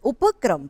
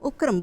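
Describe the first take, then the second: First: The p is said with a full following vowel. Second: The p is said without a following vowel. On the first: The speaker calls it right. "પ અડધો નથી, પ આખો છે" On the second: The speaker calls it wrong. "તમે ગુજરાતીમાં ઉપક્રમ ઉપક્રમ બોલો"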